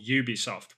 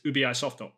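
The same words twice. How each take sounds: First: The name begins with a Y sound. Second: The name begins with a plain vowel sound. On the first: "people call it Ubisoft with a Y at the beginning" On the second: "they look at the Ubi as like U-B-I"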